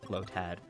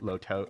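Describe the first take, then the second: First: The second syllable sounds like 'tad'. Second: The second syllable sounds like 'toad'. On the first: The speaker calls it right. "but you know, low tad" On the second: The speaker calls it wrong. "I meant to say it wrong. I meant to say low toad"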